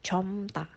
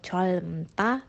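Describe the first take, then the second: First: Only an m is sounded before ta. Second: Both l and m are sounded before ta. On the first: The speaker calls it right. "tapi comta" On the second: The speaker calls it wrong. "atau colmta"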